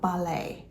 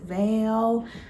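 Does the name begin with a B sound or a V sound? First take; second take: B; V. First: The name begins with a B sound. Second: The name begins with a V sound. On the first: The speaker calls it right. "hopefully I'm saying it more correctly now" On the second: The speaker calls it wrong. "I was saying that name so wrong"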